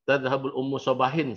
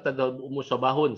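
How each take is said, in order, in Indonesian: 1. Kata terakhir berakhir dengan -in. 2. Kata terakhir berakhir dengan -un.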